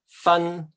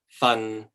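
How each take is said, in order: First: The syllable is said in the first tone. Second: The syllable is said in the sixth tone. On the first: It means to separate. "this means um, to separate" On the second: It means a portion. "This one is a portion"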